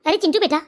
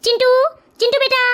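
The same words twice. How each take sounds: First: Said in the usual way. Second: Higher-pitched call to a son. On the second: Acted. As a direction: call the child in from another room. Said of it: "मैं आवाज लगाता हूँ". (दूर से बेटे को आवाज़ लगाते हुए)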